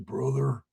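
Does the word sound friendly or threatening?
threatening. It sounds cold and threatening.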